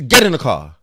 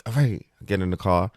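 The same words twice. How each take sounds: First: Louder barked command; loud stern order. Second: Said in the usual way. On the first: Retold or imitated. Aunt ordering her nephew into the car, loud and stern.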